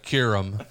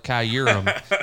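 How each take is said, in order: First: "Kurum" as KYOO-rum, two syllables; corrected pronunciation. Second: "Kyurem" as kai-YOO-rum; mistaken pronunciation. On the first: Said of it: "instead of". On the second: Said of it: "I called it Kyurem instead of". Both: Shown as a demonstration.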